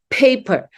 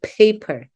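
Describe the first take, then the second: First: The first p has a strong puff of air. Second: The first p has no puff of air. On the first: The speaker calls it right. "it has to be aspirated" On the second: The speaker calls it wrong. "we just say paper"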